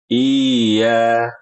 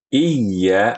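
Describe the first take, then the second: First: The y sound is loose, with no firm tongue contact. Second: The y sound is pressed firmly from the mid-tongue. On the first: The speaker calls it wrong. "kayak nggak ada pondasinya, kayak nggak ada yang het gitu, los saja dia" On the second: The speaker calls it right. "ini kita bisa rasakan dari lidah kita... Ada pondasinya"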